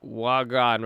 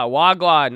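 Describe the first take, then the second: First: Said in the usual way. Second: Loud Jamaican patois "Wagwan" greeting, falling at the end. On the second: Shown as a demonstration. Streamer greets Canadian friend in Jamaican slang. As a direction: belt out "Wagwan" like a Jamaican hello.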